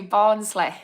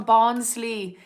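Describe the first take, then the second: First: Mock Barnsley accent on the town's name; badly faked Barnsley accent, ending on a falling tune. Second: Said in the usual way. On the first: Shown as a demonstration. Naming the nearby town to viewers, in a bad Barnsley accent. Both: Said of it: "That was a very bad Barnsley accent".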